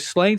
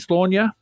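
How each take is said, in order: First: The name sounds like the word slain. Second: The name begins with slaw and ends in nyuh. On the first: This is the familiar everyday pronunciation. "I've always called it Slain" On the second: This is the Celtic, official pronunciation. "it's pronounced Slaunia. S L A W N Y U H"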